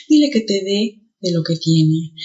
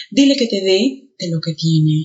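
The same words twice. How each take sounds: First: Dé said stronger; stress on dé. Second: Said in the usual way. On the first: Shown as a demonstration. Teacher demonstrating stressed dé. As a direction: lean on dé. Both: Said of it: "El primero suena más".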